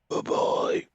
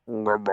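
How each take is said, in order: First: It is said in a Batman voice. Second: It is said in a Bane voice.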